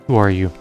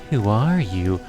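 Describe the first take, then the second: First: It is said in a plain, normal voice. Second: It is said in a mocking, obnoxious voice.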